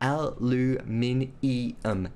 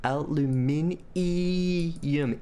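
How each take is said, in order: First: The word is said with five syllables, ending 'nium'. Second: The word is said with five syllables, ending 'nium'.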